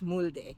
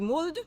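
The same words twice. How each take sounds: First: The name is pronounced in a Spanish way. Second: The name is pronounced in a German way. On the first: The boat's name is taken as Spanish. "if it's Spanish" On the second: The boat's name is taken as German. "if it's German, I guess it would be"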